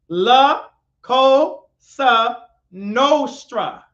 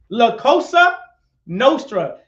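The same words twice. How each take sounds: First: It is said slowly. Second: It is said at normal speed.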